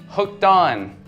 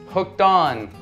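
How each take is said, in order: Both takes have the same delivery.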